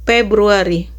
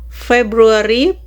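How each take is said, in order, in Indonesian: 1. Kata ini diawali dengan bunyi P. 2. Kata ini diawali dengan bunyi F.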